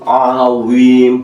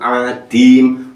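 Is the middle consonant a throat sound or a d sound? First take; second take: throat sound; d sound. First: The middle consonant is a throat sound. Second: The middle consonant is a d sound. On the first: The speaker calls it right. "Itu tulisannya ain" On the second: The speaker calls it wrong. "Kalau adim salah dua"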